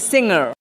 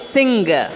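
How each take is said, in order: First: The G is sounded lightly, like in hanger. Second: The G is sounded prominently in the middle. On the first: The speaker calls it right. "It is actually singer. Like the thing you have, hanger" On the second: The speaker calls it wrong. "which is the wrong pronunciation"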